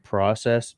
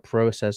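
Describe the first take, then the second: First: The first vowel is a short O sound. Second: The first vowel is a long O sound. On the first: This is the common American way. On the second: This is the common Canadian way.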